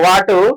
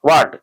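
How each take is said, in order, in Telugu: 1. హల్లు తర్వాత 'u' అనే అచ్చు అదనంగా వస్తుంది. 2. పదం చివరి హల్లుతోనే శుభ్రంగా ముగుస్తుంది.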